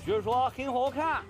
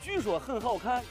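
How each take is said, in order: First: It is spoken with a Henan dialect accent. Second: It is spoken with a Shaanxi dialect accent. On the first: "河南话" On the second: "陕西话"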